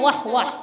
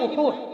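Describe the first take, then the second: First: The name is pronounced with two 'wah' syllables. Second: The name is pronounced with rounded 'u' vowels. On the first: This is how some people say the name. "কেউ কেউ বলেন" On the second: This is the correct way to say the name. "বিশুদ্ধ উচ্চারণ হলো"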